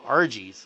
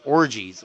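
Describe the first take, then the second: First: The first vowel sounds like 'ar'. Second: The first vowel sounds like 'or'. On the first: "they called them Argies" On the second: "she would pronounce it orgies"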